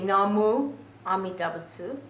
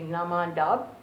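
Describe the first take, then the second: First: The phrase is said in full, syllable by syllable. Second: The phrase is contracted into one short word. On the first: "Some people say"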